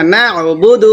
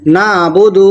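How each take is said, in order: First: نعبد with a clear throat ع; careful نعبد with ع; ain from throat. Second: نعبد with the ع swallowed; dropped ain. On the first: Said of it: "یہاں پر عین نکال کر پڑھنا ہے". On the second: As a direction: say نعبد eating the ع. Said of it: "عین ہم حذف کر دیتے ہیں". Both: Shown as a demonstration.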